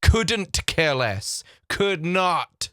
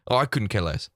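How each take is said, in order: First: COULDN'T drawn out with a crisp final T; slow, careful correction. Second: Quick, low throwaway COULDN'T CARE LESS; said too quickly. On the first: Shown as a demonstration. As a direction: spell out COULDN'T very slowly. Slow correct version after misquote. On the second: Acted. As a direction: rattle off COULDN'T so it nearly loses its ending. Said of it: "they said it too quickly".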